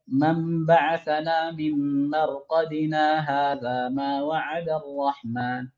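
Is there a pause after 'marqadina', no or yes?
no. It runs on without a pause after marqadina.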